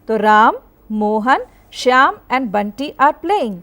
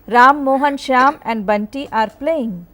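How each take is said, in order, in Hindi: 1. हर नाम के बीच छोटे पॉज़ होते हैं। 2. नाम बिना किसी पॉज़ के एक साथ बोले जाते हैं। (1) "तो पॉजेस देते हुए हम इसको पढ़ेंगे।" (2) "यदि हम कॉमा नहीं लगाएंगे तो किस प्रकार पढ़ेंगे?"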